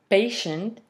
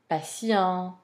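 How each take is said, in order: First: The stress falls before the final syllable. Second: The stress is on the lengthened final syllable. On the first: "in English, those words um, are stressed on the first or second syllable" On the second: "in French language, they are stressed on the final syllable"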